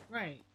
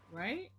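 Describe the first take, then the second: First: "Right." falling as an answer; confirming tune. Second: "right?" rising as a question; questioning tune. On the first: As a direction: confirm "Right." with the pitch dropping at the end. Answers her own question. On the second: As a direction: ask "right?" with the pitch climbing at the end. Asks herself, then answers. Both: Real, not acted.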